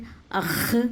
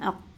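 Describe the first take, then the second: First: It ends in a raspy, scraping throat sound. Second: It ends in a k from deep in the throat. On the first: The speaker calls it wrong. "अख़ ... ये बिल्कुल भी नहीं आएगा" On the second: The speaker calls it right. "बल्कि क्या है अक़, क़ाफ ये अंदर से आएगा"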